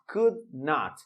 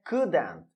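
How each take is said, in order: First: Not is said as a full separate word. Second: Not is reduced and joined onto could. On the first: "É só adicionar o not" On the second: "redução que vai virar o couldn't. A pronúncia é couldn't"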